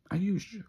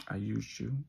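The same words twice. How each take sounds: First: Sharp, higher, louder stab on used; cold confession. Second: Said in the usual way. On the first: Retold or imitated. Mock cruel reveal, pushed up. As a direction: boyfriend coldly admitting the betrayal to James, pitched up. Villain confessing betrayal to James.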